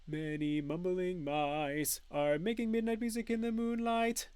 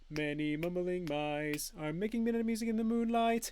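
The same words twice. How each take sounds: First: It is said at a somewhat faster pace. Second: It is said at the fastest pace.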